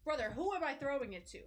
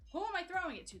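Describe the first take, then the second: First: Said in the usual way. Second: Higher, exasperated repeat of "Who am I throwing it to?". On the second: Real, not acted. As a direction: ask again, pitched up in disbelief.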